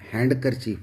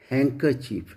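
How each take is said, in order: First: The d sound is pronounced in the word. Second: The d sound is left silent in the word. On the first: The speaker calls it wrong. "जैसे हम हैंडकरचीफ बोलते हैं" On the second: The speaker calls it right. "जबकि ये हैंकरचीफ है"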